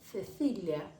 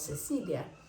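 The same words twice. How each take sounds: First: The c sounds are softer and more blown. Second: The c sounds are plain hissed s sounds. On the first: This is how it is said in some regions of Spain. "En algunas regiones de España dicen como Cecilia. Entonces es un poco más soplado" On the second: This is how it is said across Latin America. "En América prácticamente todo decimos como Cecilia"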